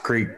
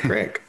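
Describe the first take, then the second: First: It is said with a long vowel, southern style. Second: It is said with a short vowel, northern style.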